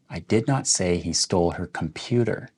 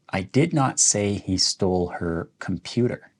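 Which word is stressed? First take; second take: computer; computer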